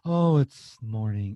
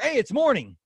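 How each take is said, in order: First: It is said in a gloomy, weary tone. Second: It is said in a cheerful, upbeat tone.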